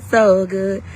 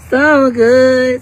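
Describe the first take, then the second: First: Said in the usual way. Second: Loud, higher gush of so good; gushing the words So good loud and high; excited. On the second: Real, not acted. Hyping her class to viewers, loud gushing.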